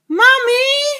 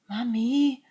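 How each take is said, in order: First: The word is said somewhat louder. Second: The word is said very quietly.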